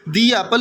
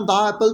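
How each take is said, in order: First: 'The' is said with a long ee vowel. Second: 'The' is said with a short uh vowel. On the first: The speaker calls it right. "दी Apple ही आप कहेंगे ना" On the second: The speaker calls it wrong. "दा Apple तो नहीं ना कह सकते"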